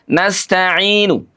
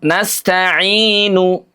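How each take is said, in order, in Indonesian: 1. Vokal akhir diucapkan dengan kadar sekitar setengah. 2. Vokal akhir diucapkan penuh dan jelas. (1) "Kalau setengahnya" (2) "Kalau utuh"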